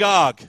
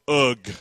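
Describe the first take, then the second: First: The vowel sounds like the o in 'dog'. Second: The vowel sounds like the u in 'bug'.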